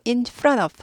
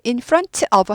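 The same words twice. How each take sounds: First: The t in front is quickly glided over. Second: The t in front is clearly pronounced. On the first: The speaker calls it right. "t가 빨리빨리 지나갑니다" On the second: The speaker calls it wrong. "in front of 하지 않고"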